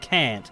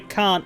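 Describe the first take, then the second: First: It is said with an American vowel. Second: It is said with an Australian vowel. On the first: This is how the character said it. The speaker calls it wrong. "He said can't. ... an Australian is not going to say can't" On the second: This is how Australians say it. The speaker calls it right. "We say can't"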